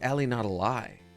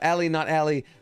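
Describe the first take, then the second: First: The name ends with the words 'a lie'. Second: The name ends with the word 'alley'. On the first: "or maybe it's" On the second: "have I been saying that wrong this whole time?"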